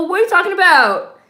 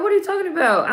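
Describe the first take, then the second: First: High, louder, exaggerated disbelief with a changed voice; louder incredulous mock. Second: High, disbelieving, falling off the end; incredulous mock quote. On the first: Viewer repeating the heroine's line as a hammed-up loud protest. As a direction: push the disbelief over the top. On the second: Viewer voicing the heroine's mock disbelief, pitched high. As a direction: act out her baffled disbelief. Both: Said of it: "She's like".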